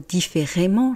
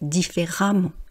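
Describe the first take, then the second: First: The vowel before -mment sounds like 'e'. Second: The vowel before -mment sounds like 'a'. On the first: The speaker calls it wrong. "j'ai pas dit ... différemment" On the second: The speaker calls it right. "j'ai dit ... différemment ... on ne voit pas de lettre A"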